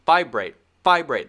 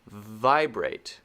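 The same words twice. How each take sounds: First: "vibrate" with a hard, popped V; V too hard. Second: "vibrate" with a light, buzzed V; soft correct V. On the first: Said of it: "That's too hard". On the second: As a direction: let the V of "vibrate" hum gently off the lip. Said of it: "It should be". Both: Shown as a demonstration.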